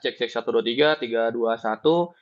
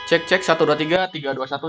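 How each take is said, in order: First: The voice is heard against a quiet background. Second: The voice is heard against outside ambient noise. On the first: "ini masih dalam keadaan yang hening" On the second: "dengan gangguan ambient dari luar"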